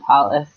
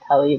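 First: The word ends with an s sound. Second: The word ends with a t sound. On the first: This is the form used in more observant circles. "kind of switched to talis" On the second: This is the Modern Hebrew form used at home. "I grew up with, like, the Hebrew"

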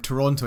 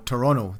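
First: The second T is clearly pronounced. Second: The second T is dropped. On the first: The speaker calls it wrong. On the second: The speaker calls it right.

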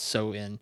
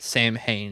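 First: The word is said the native way. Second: The word is read the common anglicized way. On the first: The speaker calls it right. "but it's pronounced Samhain" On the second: The speaker calls it wrong. "Most of us would pronounce it Samhain"

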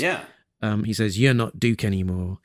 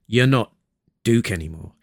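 First: The sentence runs on without any pause inside. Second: The sentence has a clear pause inside it. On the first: The speaker calls it wrong. "No, there's a pause there" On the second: The speaker calls it right. "there's a pause there"

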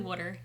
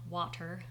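First: The word is said in a Philadelphia accent. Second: The word is said in a standard accent. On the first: The speaker calls it right. "Specifically water" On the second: The speaker calls it wrong. "not water"

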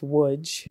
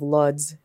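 First: The word begins with a W sound. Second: The word begins with an L sound. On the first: The speaker calls it right. "that kind of L makes a W sound" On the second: The speaker calls it wrong. "instead of Luds"

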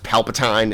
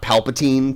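First: The last syllable rhymes with 'fine'. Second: The last syllable rhymes with 'seen'. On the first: The speaker calls it wrong. "anyone that pronounces the Emperor's name as Palpatine" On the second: The speaker calls it right. "and not Palpatine"

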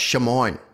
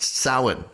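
First: The word begins with a 'sh' sound. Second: The word begins with an 's' sound. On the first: The speaker calls it wrong. "somebody once told me it was pronounced Shamoin" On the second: The speaker calls it right. "it's pronounced Samhain for sure"

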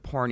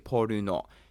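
First: It is one syllable ending in consonants. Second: It has three syllables with added vowels. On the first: "instead of porn" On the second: "in Japanese there's always a vowel sound next to the consonant"

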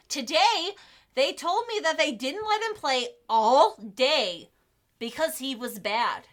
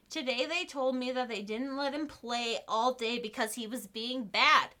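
First: It is read in an overly dramatic way. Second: It is read in a plain, neutral way.

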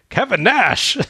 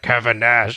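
First: The name is said with sudden surprised realization. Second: The name is said flatly, as if already known. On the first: The speaker has only just recognized who this is. The speaker calls it right. "like he's just realized that that is Kevin Nash" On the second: The speaker already knew who this was. The speaker calls it wrong. "It's not like"

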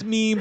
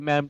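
First: The word is said with a long ee vowel. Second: The word is said with a short e vowel. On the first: The speaker calls it right. "I know it's meme" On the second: The speaker calls it wrong. "but I always just say mem"

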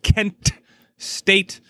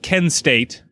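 First: The T at the end of Kent pops clearly. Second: The T at the end of Kent is dropped. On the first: "they really pronounce that Kent State. Really make that T pop" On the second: "you don't want to confuse it with Ken State"

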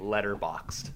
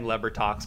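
First: The name is said as 'Letterboxd'. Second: The name is said as 'Lebertox'. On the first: The name is said properly. The speaker calls it right. "I will start saying Letterboxd" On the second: The name is deliberately garbled until a sponsorship is paid. The speaker calls it wrong. "I am going to stop saying leper toxed"

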